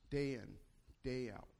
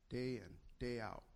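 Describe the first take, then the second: Both takes have the same delivery.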